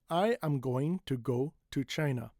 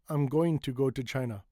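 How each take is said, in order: First: Every word is pronounced fully and separately. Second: I'm is contracted and the final g dropped. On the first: The speaker calls it wrong. "it is over enunciated" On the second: The speaker calls it right. "sometimes we cut the G"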